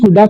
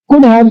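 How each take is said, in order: First: The words blend into one reduced word. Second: Both words are said fully and separately.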